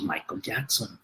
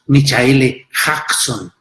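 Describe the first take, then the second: First: The name is pronounced as in English. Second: The name is read with Spanish spelling sounds. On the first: The speaker calls it right. "sino decimos Michael Jackson" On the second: The speaker calls it wrong. "no decimos Michaele Jackson"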